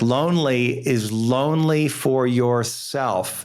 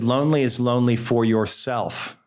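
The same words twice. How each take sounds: First: It is said slowly. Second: It is said at normal speed.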